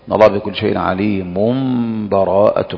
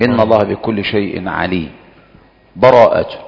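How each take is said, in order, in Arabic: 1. الكلمات تتصل مباشرة بدون أي فاصل. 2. وقف تام مع أخذ النفس قبل الكلمة الأخيرة. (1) "والوجه الثالث الوصل" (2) "هذا الوقف"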